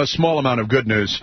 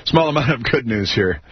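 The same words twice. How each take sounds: First: Said in the usual way. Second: Laughing. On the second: Real, not acted.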